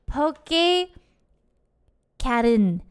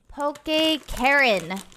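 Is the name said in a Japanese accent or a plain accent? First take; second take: Japanese; plain. First: It is said in a put-on Japanese accent. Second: It is said in a plain, unaccented way. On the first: "I'm gonna pretend like I have a Japanese accent" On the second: "I'm saying this wrong, huh?"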